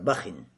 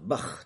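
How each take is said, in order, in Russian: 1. Слово заканчивается добавленным звуком in. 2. Слово заканчивается на звук kh без гласной. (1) "тануин кесра" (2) "либо с сукуном"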